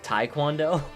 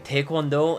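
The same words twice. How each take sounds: First: It is said with an English pronunciation. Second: It is said with a Korean pronunciation. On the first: The speaker is not fluent in Korean. "instead of" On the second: The speaker is fluent in Korean. "how I know someone is fluent in Korean"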